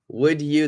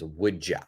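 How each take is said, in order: First: Both words are said fully and separately. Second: The words blend, with a reduced final vowel.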